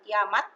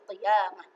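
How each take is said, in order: First: The word ends with a t sound. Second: The word ends with an h sound. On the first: The speaker calls it wrong. "bukan kiamat" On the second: The speaker calls it right. "tapi qiyamah"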